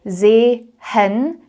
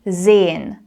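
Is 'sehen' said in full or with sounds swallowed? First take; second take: in full; swallowed. First: Every letter of the word is pronounced fully. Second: Some sounds of the word are swallowed. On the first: The speaker calls it wrong. "you don't say sehen" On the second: The speaker calls it right. "we actually swallow or skip certain letters"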